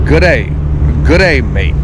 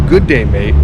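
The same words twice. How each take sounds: First: G'day mate, clipped Australian style; Australian greeting, slurred together; Aussie accent. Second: Said in the usual way. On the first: Shown as a demonstration. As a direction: squash Good day into one quick G'day. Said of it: "That's how you say to somebody".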